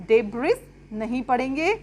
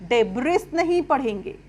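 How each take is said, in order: No difference in how they are said.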